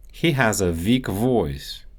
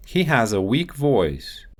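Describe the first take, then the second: First: Russian accent, "weak" said as "veak". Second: Said in the usual way. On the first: Shown as a demonstration. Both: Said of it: "W and V sounds".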